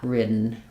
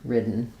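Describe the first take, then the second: No difference in how they are said.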